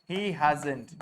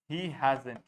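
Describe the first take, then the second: No difference in how they are said.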